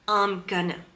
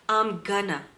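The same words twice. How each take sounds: First: Going to is blended together into gonna. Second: Going to is blended together into gonna.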